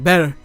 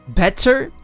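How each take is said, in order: First: The T in the middle is dropped. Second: The T in the middle is clearly pronounced.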